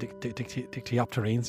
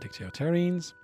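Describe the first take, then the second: First: The word is said with a p sound. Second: The word is said without a p sound. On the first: The speaker calls it right. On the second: The speaker calls it wrong.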